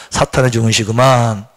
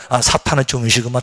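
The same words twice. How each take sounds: First: Slow low repeat; slow calm recitation; repeat after me. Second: Low knowing tone; calm low recognition; modelled line. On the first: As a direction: echo slowly for the congregation. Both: Shown as a demonstration. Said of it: "따라합시다".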